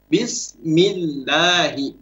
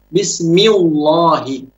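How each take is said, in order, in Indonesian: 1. L dalam Allah itu ringan dan tipis. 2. L dalam Allah itu berat dan tebal. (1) "Yang boleh dan yang benar bismillahi" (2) "Tidak boleh kita baca bismillahi"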